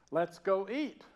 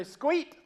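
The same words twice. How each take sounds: First: Said in the usual way. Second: "Squeet" in one loud, high Southern syllable; Southern accent. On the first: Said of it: "I'd say". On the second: Shown as a demonstration. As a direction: squash "let's go eat" into Southern "Squeet". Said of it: "I slip into this accent".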